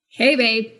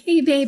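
First: It is said in a cold, distant tone. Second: It is said in a warm, inviting tone.

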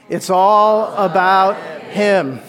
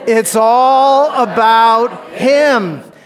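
First: The phrase is said plainly, without extra force. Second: The phrase is said loudly, with strong conviction. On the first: "Say it with me" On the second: "Now say it like you mean it"

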